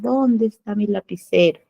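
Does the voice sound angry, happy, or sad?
sad. The voice sounds sad and downcast. "con tristeza"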